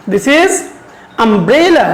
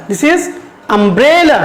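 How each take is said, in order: First: Said in the usual way. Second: Umbrella drawn out with a falling end; slow model reading. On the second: Shown as a demonstration. Teacher slowly modelling umbrella for her students. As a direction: stretch every syllable of umbrella clearly. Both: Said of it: "can you pronounce it?".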